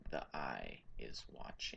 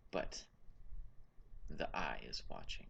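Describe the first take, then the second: First: Barely voiced, low and eerie; eerie whisper. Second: Low, hushed and ominous; ominous low whisper. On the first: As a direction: breathe the warning almost silently. NPC repeats it softer. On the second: Acted. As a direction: murmur it like a dark warning. NPC ominous repeat.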